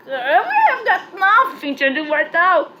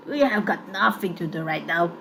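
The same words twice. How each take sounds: First: Higher, louder bored gang leader; villain voice. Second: Said in the usual way. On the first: Acted. Ringleader lounging on the bench, bored, in the villain voice. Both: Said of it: "I like making dramatic voices".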